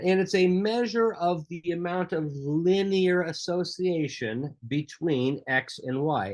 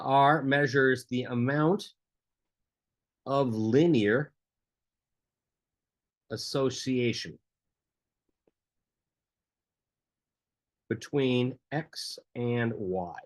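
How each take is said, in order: First: It is said at normal speaking speed. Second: It is said slowly and deliberately.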